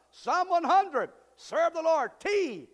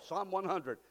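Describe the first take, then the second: First: Louder, higher, slow proclamation; preaching at full force. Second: Said in the usual way. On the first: Acted. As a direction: shout the reference to the hall.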